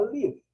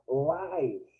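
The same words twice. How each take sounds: First: The vowel is a short 'ih' sound. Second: The vowel sounds like the word 'eye'. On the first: It means to reside or be alive. "mas a pronúncia é diferente" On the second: It means broadcast as it happens. "a pronúncia é com A"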